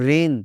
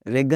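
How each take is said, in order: First: The g sound is left out. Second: A g sound is pronounced. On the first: The speaker calls it right. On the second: The speaker calls it wrong.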